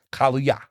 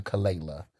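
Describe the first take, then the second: First: Kaluya said as kah-LOO-yah; correct pronunciation. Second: Kalela said wrongly as kuh-LAY-luh; wrong pronunciation. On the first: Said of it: "That is how you pronounce it". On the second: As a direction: say "Kalela" the mistaken way, low and dismissive. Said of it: "Y'all been calling it Kalela". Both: Shown as a demonstration.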